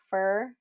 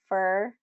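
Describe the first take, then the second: Both takes have the same delivery.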